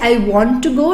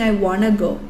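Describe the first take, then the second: First: Want and to are said as separate full words. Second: Want and to blend into one reduced word. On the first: It sounds slightly formal. The speaker calls it right. "it's better to be slightly formal. So you say I want to go" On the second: It sounds casual, like native speakers' everyday speech. The speaker calls it wrong. "instead of saying I wanna go"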